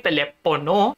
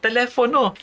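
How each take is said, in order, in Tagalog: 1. Ang gitnang katinig ay tunog na p. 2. Ang gitnang katinig ay tunog na f. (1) "hindi telepono" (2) "yung pronunciation ni Brother Eli, telefono"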